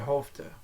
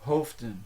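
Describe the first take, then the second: First: The word ends without any n sound. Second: The word ends with a clear n sound. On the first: The speaker calls it right. "They say Hofte. So that final N is dropped" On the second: The speaker calls it wrong. "if you want to emphasize a verb in the infinitive form, you will pronounce the N"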